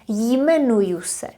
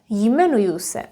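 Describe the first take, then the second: No difference in how they are said.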